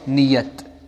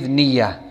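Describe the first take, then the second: First: The word ends with a t sound. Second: The word ends in a vowel, no t. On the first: The speaker calls it wrong. "So we don't say niyat" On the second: The speaker calls it right. "Same with niya"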